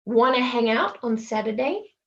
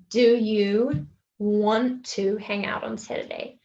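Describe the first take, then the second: First: "Wanna" run together as one word, rising end; casual "Wanna" for "want to"; casual reduced question. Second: "Do you want to" slowly, each word separate; full careful form. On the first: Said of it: "cut off some words". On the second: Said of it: "rather than saying". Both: Shown as a demonstration.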